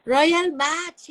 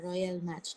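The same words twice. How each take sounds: First: Louder, higher, with a rising call; happy recognition of the game; excited naming. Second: Much softer and lower, with a falling tune; low settled agreement; quiet confirming. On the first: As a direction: blurt the name out eagerly. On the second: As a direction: confirm it softly to yourself. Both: Real, not acted.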